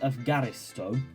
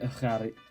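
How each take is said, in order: First: The middle consonant is said strong and harsh. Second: The middle consonant is said light and soft. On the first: The speaker calls it wrong. "some people pronounce it Efgaristo. ... So these are the wrong ones" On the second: The speaker calls it right. "not a really, really strong G sound and not a really, really strong H sound"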